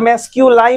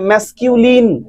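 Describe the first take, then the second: First: The last syllable rhymes with 'line'. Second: The last syllable is a short 'lin'. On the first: The speaker calls it wrong. "ম্যাসকিউলাইন নয়" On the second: The speaker calls it right.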